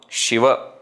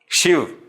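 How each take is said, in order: First: The name ends with a final a vowel. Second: The name ends on the v consonant. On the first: This is the proper Sanskrit form. "we have to still use that akara last a completely" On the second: This is the everyday form used in Hindi and similar languages. "we say Ram, Shiv"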